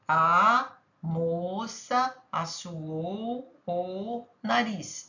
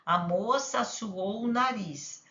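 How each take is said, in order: First: Very slow, each word of "A moça assoou o nariz" drawn out separately. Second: Said in the usual way. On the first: Shown as a demonstration. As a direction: count the words out slowly for the child. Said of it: "Cinco quadrinhos ela vai pintar". (bem devagar, palavra por palavra) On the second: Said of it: "ela pode dizer".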